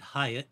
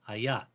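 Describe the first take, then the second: First: It is said like the hotel name. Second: It is not said like the hotel name. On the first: The speaker calls it wrong. "I would have pronounced it Hyatt, like the hotel" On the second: The speaker calls it right. "that's not this gal's origin, and so it's pronounced"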